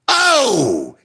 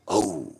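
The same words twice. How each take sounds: First: It is said loudly. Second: It is said very quietly and low.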